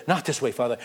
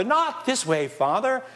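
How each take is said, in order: First: Said in the usual way. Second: Higher, urgent protest to his father; Joseph's protest. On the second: Acted. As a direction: push back hard on each word.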